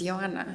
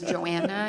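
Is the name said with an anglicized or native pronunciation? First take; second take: native; anglicized. First: The name is said with its native pronunciation. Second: The name is said with an anglicized pronunciation. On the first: The speaker calls it right. "that's not my name. My name is Joanna" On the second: The speaker calls it wrong. "I always used to say my name was Joanna"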